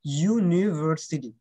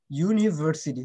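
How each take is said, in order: First: university stretched out, each syllable clear; unhurried ইউ-নি-ভার-সিটি; slow careful model. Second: Said in the usual way. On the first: Shown as a demonstration. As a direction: slowly model university for the class. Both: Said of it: "correct প্রনাউন্সিয়েশনটা শিখতে হয়".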